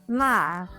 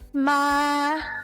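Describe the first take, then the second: First: The pitch falls sharply from high to low. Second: The pitch stays high and level.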